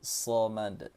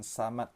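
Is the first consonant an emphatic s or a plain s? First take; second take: emphatic; plain. First: It begins with a heavy, emphatic s sound. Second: It begins with a plain, light s sound. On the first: The speaker calls it right. "tapi samad" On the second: The speaker calls it wrong. "bukan samad"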